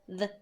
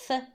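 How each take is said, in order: First: The th sound is voiced, with a buzz. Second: The th sound is voiceless, with no buzz.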